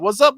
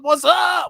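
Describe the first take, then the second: First: High, loud rising hello; excited greeting. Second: Very high, loud hyped shout; shouted greeting. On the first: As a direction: call out a bright, rising greeting. Repeated greeting to guest. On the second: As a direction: yell the greeting across the room. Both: Real, not acted.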